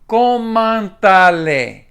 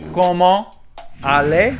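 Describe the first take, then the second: First: A t sound links comment to aller. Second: The final t of comment is silent. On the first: "Like the sound attaches itself to the next word" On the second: "Comment by itself is comment"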